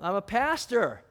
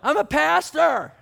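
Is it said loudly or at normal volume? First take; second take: normal volume; loudly. First: It is said at normal volume. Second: It is shouted loudly over noise.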